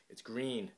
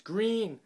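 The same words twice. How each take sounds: First: Said in the usual way. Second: High, loud, triumphant announcement; excited, raised-voice reveal. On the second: Real, not acted. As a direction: announce it louder and higher, thrilled.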